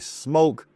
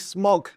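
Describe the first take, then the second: First: The vowel is long, as in 'smoke'. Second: The vowel is short, as in 'smock'. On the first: This is how the company says it. "I've been told that it's going to be Smoke" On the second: This is how the speaker habitually says it. "I always say Smok"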